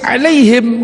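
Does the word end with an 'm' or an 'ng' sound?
m sound. The word ends with an 'm' sound.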